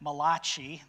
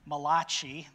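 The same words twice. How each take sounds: First: It is said in a put-on Italian accent. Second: It is said in a put-on Italian accent.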